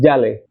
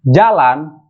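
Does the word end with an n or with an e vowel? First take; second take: e vowel; n. First: The word ends with an e vowel. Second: The word ends with an an sound. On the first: "akan dirubah menjadi jale" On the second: "kata yang berakhiran an"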